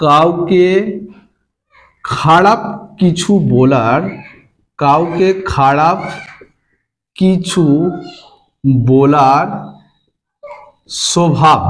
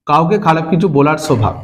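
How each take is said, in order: First: Word by word with long pauses; slow dictation. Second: Said in the usual way. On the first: Shown as a demonstration. Teacher giving students the meaning, slow dictation. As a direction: dictate it slowly, leaving gaps for writing.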